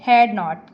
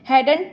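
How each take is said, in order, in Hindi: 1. इसे दो पूरे शब्दों में बोला जाता है। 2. इसे एक संक्षिप्त शब्द में बोला जाता है।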